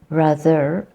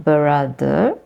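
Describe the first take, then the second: First: The b and r are said together. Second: A vowel is inserted between b and r. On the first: "rather than brother" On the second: "the inserting the vowel becomes brother"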